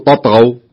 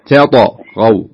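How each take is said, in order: First: Both t-sounds are emphatic, merged as one. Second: A plain t, then a distinct emphatic t. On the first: The speaker calls it wrong. "ولا تقول تطغوا. تطغوا صارت كلها طاء" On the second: The speaker calls it right. "فتقول ألا تطغوا تطغوا"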